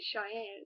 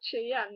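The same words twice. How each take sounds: First: The name begins with a sh sound. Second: The name begins with a ch sound. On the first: This is how the owner of the name says it. "if he managed to say" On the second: This is how a Spanish speaker says it. "It always came out"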